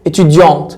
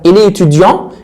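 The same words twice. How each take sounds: First: اتيديونت with the t clearly sounded at the end; feminine étudiante. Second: اتيديون ending on a nasal vowel, no t sound; masculine étudiant. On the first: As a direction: finish اتيديونت on a crisp t. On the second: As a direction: say اتيديون with the final t silent. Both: Shown as a demonstration. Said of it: "الماسكولا بنضيف له او".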